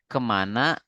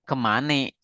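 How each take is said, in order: First: It is said in standard Indonesian, ending in 'a'. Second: It is said in Betawi dialect, ending in 'e'. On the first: The speaker is a general Indonesian. "yang kemana dia Indonesia asli" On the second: The speaker is from the Betawi community. "Yang kemane berarti dia Betawi"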